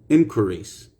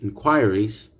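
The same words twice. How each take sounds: First: It is said in an American accent. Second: It is said in a British accent. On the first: "American English" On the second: "British English"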